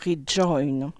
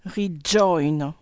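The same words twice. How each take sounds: First: Rejoin with a firm attacked j, lower; hit the consonant. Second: Rejoin with a firm attacked j; hit the consonant. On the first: (rejoin, consonne attaquée, plus grave) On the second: (rejoin, consonne bien attaquée) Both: Shown as a demonstration. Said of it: "on appuie sur le D".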